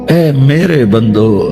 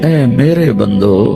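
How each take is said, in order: No difference in how they are said.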